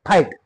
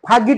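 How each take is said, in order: First: No g sound is pronounced in the middle. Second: A g sound is pronounced in the middle. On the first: The speaker calls it right. "जीचा उच्चार आहे का नाही" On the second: The speaker calls it wrong. "फागीट म्हणतो आपण फागीट किंवा फाजीट ग म्हणतो का"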